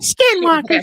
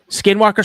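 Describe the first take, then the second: First: It is said in an Elmo voice. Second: It is said in a normal voice.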